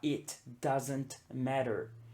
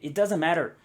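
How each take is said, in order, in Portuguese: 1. Dita devagar, com cada t pronunciado claramente. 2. Dita rapidamente, com os sons do t omitidos. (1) "Se eu estou falando devagar" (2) "numa conversação real, o que você realmente vai ouvir"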